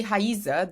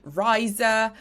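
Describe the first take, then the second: First: Raíza said the Portuguese way, with an H-like sound at the start, /haizə/; Portuguese pronunciation. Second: Riza said the English way, with an English R and a long I, like 'RYE-za'; English pronunciation. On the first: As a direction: say Raíza as in Brazil, opening with a breathy H. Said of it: "if I say Raíza". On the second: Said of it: "I have to say Riza". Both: Shown as a demonstration.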